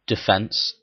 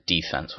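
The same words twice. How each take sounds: First: Said in the usual way. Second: Put-on DEFENSE in an American accent, stressed on the first syllable. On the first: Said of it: "what's saying". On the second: Gamer slipping into football talk, American accent on DEFENSE. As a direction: say "defense" American-style, as DEE-fense. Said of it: "that's my terrible American accent".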